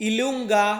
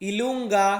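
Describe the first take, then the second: Both takes have the same delivery.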